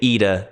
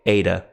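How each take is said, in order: First: It is pronounced in a modern Greek style. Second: It is pronounced in the Erasmian academic style. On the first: "I say" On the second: "they say"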